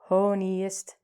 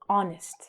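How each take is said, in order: First: The word begins with an audible H sound. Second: The word begins with a vowel, no H. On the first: The speaker calls it wrong. "We don't say ho, ho, honiest" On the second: The speaker calls it right. "But we say honest"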